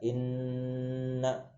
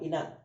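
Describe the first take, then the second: First: The nasal n sound is held for a long time. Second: The nasal n sound is short and not held. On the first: The speaker calls it right. "ditahan. Dua sampai tiga harokat" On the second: The speaker calls it wrong. "bukan ina"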